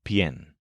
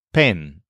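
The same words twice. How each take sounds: First: Pien with a y glide before the e; isolated bent-vowel syllable pien; stem-changed pien. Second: Pen with a pure e, no glide; isolated unbent syllable pen; plain pen. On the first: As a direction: say pien as pyen, one syllable. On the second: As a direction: say pen straight, without a y. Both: Shown as a demonstration. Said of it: "start with pen instead of pien".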